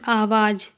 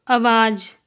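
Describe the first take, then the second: First: Long opening aa in "आवाज"; correct pronunciation. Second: Short first vowel in "आवाज", like "अवाज"; incorrect pronunciation. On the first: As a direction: say "आवाज" with the first vowel held long. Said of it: "शुद्ध शब्द". ("आवाज" का शुद्ध उच्चारण, शुरू में लंबा आ) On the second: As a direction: say "आवाज" wrongly with a clipped opening a. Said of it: "अशुद्ध शब्द". ("आवाज" का अशुद्ध उच्चारण, शुरू में छोटा अ) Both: Shown as a demonstration.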